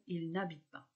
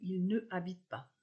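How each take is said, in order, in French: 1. La voyelle de ne est supprimée devant habite. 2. La voyelle de ne est conservée devant habite. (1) "mais ... il n'habite pas" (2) "On ne dit pas"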